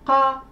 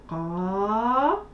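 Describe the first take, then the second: First: The vowel is short. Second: The vowel is long. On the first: "Ce sont des sons qui sont courts" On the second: "Pour prolonger le son A, on rajoutera la lettre Alif"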